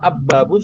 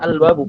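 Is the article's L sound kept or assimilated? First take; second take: assimilated; kept. First: The article's L becomes a doubled B. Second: The article keeps a clear L sound. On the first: The speaker calls it wrong. "sulit dan juga nggak pernah kita dengar" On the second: The speaker calls it right. "otomatis kita bilangnya al-babu"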